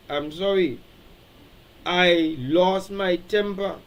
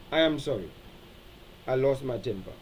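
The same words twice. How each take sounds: First: "I lost my temper" slowed right down and spelled out firmly; deliberate apology. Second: Soft, low "I am sorry. I lost my temper."; sincere apology. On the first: Pastor modeling the right apology to the congregation, slow and firm. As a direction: lay each word down slowly and clearly. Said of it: "That is what you need to say". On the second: Pastor demonstrating a sincere sorry, quiet and low. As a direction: say it simply and quietly. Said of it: "That's called expressing regret". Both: Shown as a demonstration.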